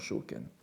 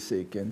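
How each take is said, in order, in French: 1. Le nom commence par un son 'show'. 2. Le nom commence par un son 'say'. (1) "sinon Shoken" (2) "purisme Tendai, vous prononcez Seiken"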